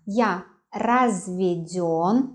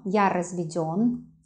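First: Разведён said slowly, final ё drawn out; slow teacher demo of разведён with stressed ё. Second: Said in the usual way. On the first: Shown as a demonstration. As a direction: stretch out разведён, leaning on the last syllable yo. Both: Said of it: "the stress on yo".

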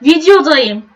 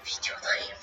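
First: Said in the usual way. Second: Breathy stage whisper; whispered intro. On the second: Pretend. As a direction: whisper it like a secret. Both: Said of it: "playful intro variants".

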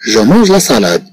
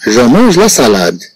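First: Said in the usual way. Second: Each word read out slowly and clearly; slow model reading. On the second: Shown as a demonstration. Teacher reads the French sentence slowly to the class. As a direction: read it slowly so pupils can follow. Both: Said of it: "Nous prenons la première phrase".

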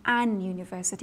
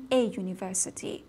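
First: "an university" with N before the "you" sound; wrong article demo. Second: "a university" with A straight into the "you" sound; correct article demo. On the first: Teacher shows students the mistaken form, wrong article demo. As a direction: say "an university", putting an N ahead of the Y glide. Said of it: "این غلطه". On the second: Teacher shows students the required form, correct article demo. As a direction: say "a university", no N before the Y glide. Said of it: "باید بگیم a university". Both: Shown as a demonstration.

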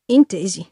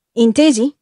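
First: "Intesi" said low with a falling close; flat agreement. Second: "Intesi?" asked as a pointed question; questioning tune. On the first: ("Intesi" detto piano, con tono discendente) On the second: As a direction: press him with "Intesi?" as a demand for agreement. ("Intesi?" detto come domanda decisa) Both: A narrator's reading. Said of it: "rispose Irving".

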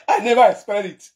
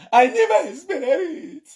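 First: Said in the usual way. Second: Slow, high mocking imitation with a laugh; mocking her English. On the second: Vlogger mocking the woman's English, slow and high. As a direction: drag it out higher to mock her. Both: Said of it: "spoil my platform with English".

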